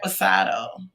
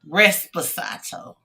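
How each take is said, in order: First: The word is said with no s before p. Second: The word is said with an s before p. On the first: The speaker calls it right. "how you say it again?" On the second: The speaker calls it wrong. "What I say?"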